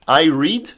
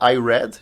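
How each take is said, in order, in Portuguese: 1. O verbo é pronunciado com a vogal longa 'ee'. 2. O verbo é pronunciado com a vogal curta 'e'. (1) "é presente" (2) "é passado"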